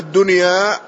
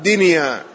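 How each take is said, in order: First: دنيا pronounced "DUN-ya", short u after d; damma on the dal. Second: دنيا pronounced "DIN-ya", short i after d; kasra on the dal. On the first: Teacher shows students the standard vowelling, دنيا said as "dunya". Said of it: "تضبط بضم الدال". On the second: Teacher cites the variant reading to students, دنيا said as "dinya". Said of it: "وبعضهم حكاها بكسر الدال فقال". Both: Shown as a demonstration.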